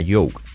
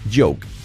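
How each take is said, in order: First: The word begins with a 'y' sound. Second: The word begins with a 'j' sound. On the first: The speaker calls it wrong. "podemos decir yoke. Oh, tell me a yoke. No es yoke" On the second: The speaker calls it right. "es j, j, j, joke"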